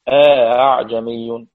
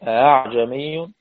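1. تأتي ألف قبل الهمزة الثانية المسهّلة. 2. الهمزة الثانية مسهّلة دون ألف قبلها. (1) "تسهيل مع الإدخال" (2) "تسهيل دون إدخال"

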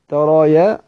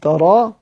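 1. الراء تأخذ i والهمزة تصير y. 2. تُحذف الهمزة ويُمدّ الحرف. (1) "وهو وجه ضعيف" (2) "اللي هو الحذفي مع المد"

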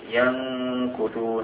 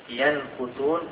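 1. النون مُخفاة، تُنطق بغنّة وتتداخل مع الكاف. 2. النون تُنطق كاملة وواضحة قبل الكاف. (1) "نريد أن نخفي" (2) "لا نقول ينكثون، إذا قلنا أظهرنا النون فهذا يسمى ظهار"

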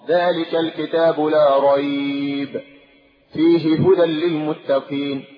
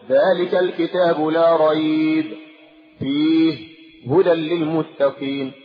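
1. يقف على أحد الموضعين فقط. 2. يقف على الموضعين كليهما. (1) "نقف على واحدة ونصل الأخرى" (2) "لا يصح أن أقف على الاثنين، فلا أقول"

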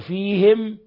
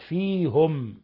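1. يلي الهاءَ حركةُ الكسرة. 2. يلي الهاءَ حركةُ الضمة. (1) "خالفوه" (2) "بضم"

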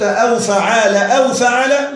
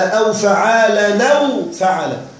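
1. لا تنوين، و'aw' تبدأ بهمزة. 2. التنوين يتصل بـ 'aw' بدون همزة. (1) "بدون تنوين في فعال وبهمزة في أو" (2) "بتنوين في فعالا وبدون همزة في أو"

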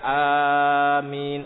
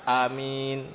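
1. Vokal pertama dipanjangkan. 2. Vokal pertama ditahan selama dua ketukan. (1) "Boleh A-nya dipanjangkan" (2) "Atau A-nya dua harokat"

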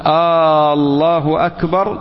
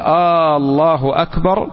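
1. تبدأ الكلمة الأولى بحركة طويلة ممدودة. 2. تبدأ الكلمة الأولى بحركة قصيرة. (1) "أو جعل ألف لفظ الجلالة حرف استفهام" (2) "قل الله أكبر"

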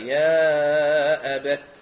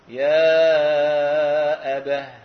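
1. تنتهي الكلمة بصوت التاء. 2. تنتهي الكلمة بصوت الهاء. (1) "بالتاء" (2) "وقفا بالهاء"

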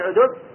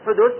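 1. يبدأ الاسم بصوت عين حلقية. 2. يبدأ الاسم بصوت حاء خفيف فيه نفَس. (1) "ويقال بالعين" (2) "يقال بالحاء"

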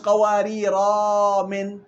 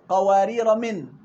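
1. تأتي ألف مدّ بعد «قوارير» قبل «من». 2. تتصل «قوارير» بـ«من» دون حركة زائدة. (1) "مش قوارير من" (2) "وصلا قوارير من"

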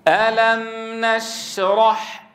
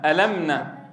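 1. صوت الميم يُمدّ لحظة. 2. صوت الميم يُقطع قصيرًا جدًا. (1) "الأصل أن تعطي زمنا للميم البينية" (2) "بعضهم يقرأ ألم نشرح، ألمنا ألمنا ألمنا"

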